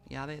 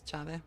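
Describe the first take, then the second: First: The first sound is a y-like sound. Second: The first sound is a sh-like sound.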